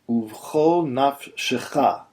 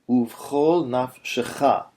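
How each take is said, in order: Both takes have the same delivery.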